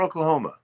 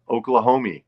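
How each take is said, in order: First: It is said in a northern regional pronunciation. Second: It is said in a standard pronunciation.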